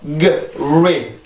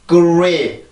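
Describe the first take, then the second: First: The g and r are said apart. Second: The g and r blend with rounded lips. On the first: The speaker calls it wrong. "g, 리, g, 리 이게 아니라" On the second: The speaker calls it right. "이런 식으로 소리가 나게 돼요"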